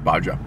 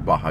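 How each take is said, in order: First: The middle consonant is a hard j sound. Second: The middle consonant is a soft h sound. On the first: The speaker calls it right. "you hit that J hard" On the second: The speaker calls it wrong. "You don't say Baja"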